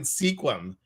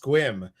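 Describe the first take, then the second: First: The name is said with two syllables. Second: The name is said with one syllable. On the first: The speaker calls it wrong. "I was calling it Sequim. It's not" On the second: The speaker calls it right. "it's Squim"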